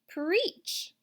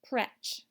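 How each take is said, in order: First: The vowel is long, as in beach. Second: The vowel is short, as in bread. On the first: The speaker calls it right. "the more common sound of E, like beach" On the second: The speaker calls it wrong. "try the short sound as well"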